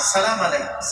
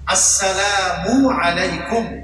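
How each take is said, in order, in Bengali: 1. প্রথম অংশটি বাদ পড়ে যায় এবং শব্দগুলো অস্পষ্ট হয়ে যায়। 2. প্রতিটি অংশ, শুরু ও শেষের স্বরসহ, স্পষ্ট শোনা যায়। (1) "অনেকে আমরা বলি" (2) "হামজাটাও ক্লিয়ার, ... এটাও ক্লিয়ার করে উচ্চারণ করো"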